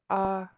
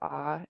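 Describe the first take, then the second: First: The vowel is said on a high pitch. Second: The vowel is said on a low pitch. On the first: "that lets you know it's high tone. So just increase the tone of your voice" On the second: "So instead of ah"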